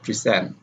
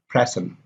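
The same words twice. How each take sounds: First: "present" as pre-SENT; second-syllable stress. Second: "Present" with stress on PRE; first-syllable stress. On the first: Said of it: "the stress is on the second syllable". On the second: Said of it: "stress is usually on the first syllable". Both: Shown as a demonstration.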